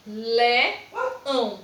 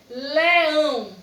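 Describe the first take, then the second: First: LEÃO split into LE, pause, ÃO; teacher breaking LEÃO into LE and ÃO; syllable by syllable. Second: LEÃO loud and whole, falling at the end; LEÃO projected clearly without a break; emphatic whole word. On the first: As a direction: say LEÃO in two separate beats, LE... ÃO. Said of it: "A sílaba duas vezes". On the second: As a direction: announce LEÃO as one joined word. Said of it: "a palavra duas vezes". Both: Shown as a demonstration.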